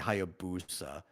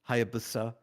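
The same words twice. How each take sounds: First: The u vowel is clearly and fully pronounced. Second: The u vowel is dropped or nearly silent. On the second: "you don't say the U"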